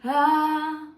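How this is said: The vowel starts with breath before the sound. "If I was to do it on a breathy attack"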